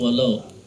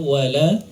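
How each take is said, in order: First: The L is heavy, with a darkened o-like vowel. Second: The L is light, with a clear a vowel. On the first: The speaker calls it wrong. "bukan walau" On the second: The speaker calls it right. "Harusnya wala"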